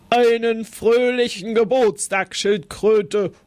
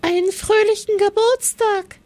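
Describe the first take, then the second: First: A mild puffing rhino voice. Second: Much higher, squeaking little mouse; squeaky mouse. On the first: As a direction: huff the greeting out like a big rhino. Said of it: "schnaufte es". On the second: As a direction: peep out the greeting like a tiny mouse. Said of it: "piepste sie". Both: Acted.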